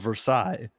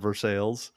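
First: The name is said with a French pronunciation. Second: The name is said with an anglicized pronunciation. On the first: This is the original French place name. "you can't pick and choose your fucking French words" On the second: This is the local place name in the United States. "everywhere that has a Versailles instead of Versailles"

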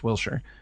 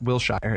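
First: The ending is said like 'sure'. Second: The ending is said like 'shire'. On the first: The speaker calls it right. "it's Wilshire" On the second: The speaker calls it wrong. "It's not Wilshire"

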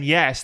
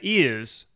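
First: It is said in a plain everyday accent. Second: It is said in a posh accent, like 'ears'. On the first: "instead of saying yes" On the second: "There are some really posh areas where"

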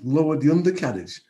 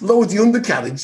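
First: It is said in a calm, posh accent. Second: It is said in a casual, non-posh accent. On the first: "They do actually use the Queen's English" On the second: "They don't say, hey, mate"

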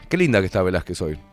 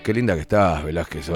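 First: It is said in a pleasant, friendly tone. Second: It is said in a creepy, leering tone.

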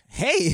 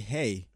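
First: It is said in a put-on voice. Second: It is said in his normal voice.

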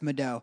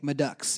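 First: The name ends with an 'oh' sound. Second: The name ends with a 'ks' sound. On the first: The speaker calls it right. "no, it's Madeau ... E-A-U-X is O" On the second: The speaker calls it wrong. "every time someone would mispronounce it, they'd be like"

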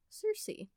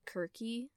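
First: The name begins with an s sound. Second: The name begins with a k sound. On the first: This is the common modern way people say the name. "that is not the actual Greek pronunciation" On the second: This is how the ancient Greeks said the name. "The way that the Greeks would pronounce it is Kirky"

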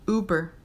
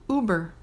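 Both takes have the same delivery.

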